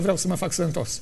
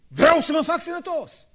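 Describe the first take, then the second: First: It is said grudgingly, without real conviction. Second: It is said forcefully, with strong conviction. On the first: The wish is only made under pressure. The speaker calls it wrong. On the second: The wish is sincere and wholehearted. The speaker calls it right.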